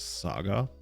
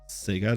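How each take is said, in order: First: The word is pronounced to sound like Saga. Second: The word is pronounced to sound like Sega. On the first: It is the way it is supposed to be said. "everybody knows it's supposed to be Saga" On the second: It is the American way of saying it. "how do you not pronounce it like Sega? ... it feels like the American way"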